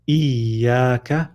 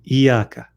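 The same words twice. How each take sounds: First: "iyaka" lingering on the doubled ya; careful recited "iyaka" with a held ya; hung ya. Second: "iyaka" with a quick single y, no hold; "iyaka" shortened, the ya not doubled; dropped shadda. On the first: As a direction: hang on the y of "iyaka" before the long aa. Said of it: "I'm hanging on the ya for a little bit". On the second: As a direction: skip straight through the ya of "iyaka". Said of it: "they say iyaka". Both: Shown as a demonstration.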